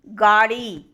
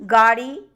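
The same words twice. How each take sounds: First: गाड़ी said with a breathy aspirated ड़. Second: Said in the usual way. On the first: Shown as a demonstration. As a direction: push air after the ड़ in गाड़ी. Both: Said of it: "महाप्राणीकरण".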